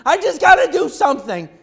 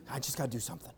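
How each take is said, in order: First: High, loud overwhelmed outburst; frantic. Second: Low, soft resigned murmur; muttered. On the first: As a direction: blurt it out in a panic to act. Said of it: "so overwhelmed that you just don't know what to do". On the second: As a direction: say it under your breath as you busy yourself. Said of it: "mom goes over and she starts doing dishes". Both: Retold or imitated.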